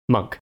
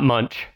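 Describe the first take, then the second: First: The name ends with a 'k' sound. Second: The name ends with a 'ch' sound. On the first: The speaker calls it right. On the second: The speaker calls it wrong.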